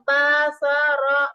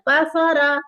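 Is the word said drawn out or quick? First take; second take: drawn out; quick. First: The vowels are lengthened and drawn out. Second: The vowels are short and said quickly. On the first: The speaker calls it wrong. "लंबा नहीं करेंगे, बाफरा तो मेरा हमारा गलत हो जाएगा" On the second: The speaker calls it right. "हमें बिल्कुल जल्दी करना है"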